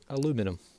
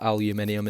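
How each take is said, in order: First: It is said the American way, four syllables. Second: It is said the Scottish way, five syllables. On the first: "obviously in the States" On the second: "We do call it aluminium in Scotland"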